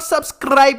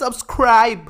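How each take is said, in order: First: The R sound is weak or unclear. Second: The R sound is clearly pronounced. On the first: The speaker calls it wrong. "it's not subscribe" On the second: The speaker calls it right. "The letter R should be pronounced as R"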